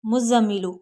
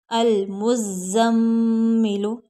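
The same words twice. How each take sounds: First: मुज़म्मिलु said fast with no hold on म्म; quick careless मुज़म्मिलु without the मीम hold; rushed wrong way. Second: मुज़म्मिलु slow with the doubled म्म held nasally; slow nasalized म्म in मुज़म्मिलु; nasal hold. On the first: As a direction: rattle off मुज़म्मिलु quickly, no nasal pause. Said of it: "इस तरह से नहीं पढ़ना". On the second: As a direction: linger on the मीम of मुज़म्मिलु. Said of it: "जल्दी से नहीं पढ़ना इनको". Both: Shown as a demonstration.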